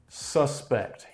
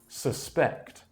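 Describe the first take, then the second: First: The stress is on the first syllable. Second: The stress is on the second syllable. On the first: It names a person thought to be guilty. "the noun is pronounced suspect" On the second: It means to think something is probably true. "the stress for the verb is on the second syllable"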